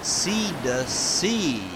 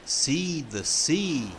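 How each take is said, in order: First: Slow louder drill. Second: Slow careful drill. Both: Shown as a demonstration.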